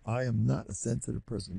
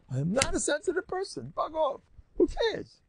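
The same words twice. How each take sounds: First: Said in the usual way. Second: "I am not a sensitive person" declared much higher and bolder, "Bug off" and "Who cares" tossed off high; official declaration. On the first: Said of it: "And you must". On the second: Shown as a demonstration. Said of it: "Let's make that official".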